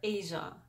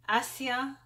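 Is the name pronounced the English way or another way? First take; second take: English way; another way. First: The name is said with an English pronunciation. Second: The name is said with a non-English pronunciation.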